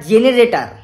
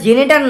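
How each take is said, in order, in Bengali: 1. শব্দটি চারটি দলে উচ্চারিত হয়। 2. শব্দটি তিনটি দলে উচ্চারিত হয়। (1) "ওটা জেনারেটার" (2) "ওটা জেনেটার না"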